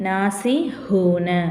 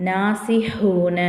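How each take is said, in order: No difference in how they are said.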